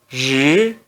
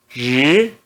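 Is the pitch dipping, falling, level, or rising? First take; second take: rising; rising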